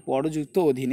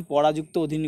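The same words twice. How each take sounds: First: পরযুক্ত with no aa after the r, lower and softer; corrected split. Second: পরাযুক্ত with an aa after the r, said lightly; common mistaken split. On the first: Teacher correcting a common mistake, careful পরযুক্ত without the aa. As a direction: say পরযুক্ত অধীন carefully, short vowel before যুক্ত. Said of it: "এখানে পরযুক্ত অধীন, এগুলো ভালো করে করবে". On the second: Teacher quoting what many students do, পরাযুক্ত with added aa. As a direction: give পরাযুক্ত অধীন with the extra aa sound. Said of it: "অনেকে পরাযুক্ত অধীন করে ফেলবে". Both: Shown as a demonstration.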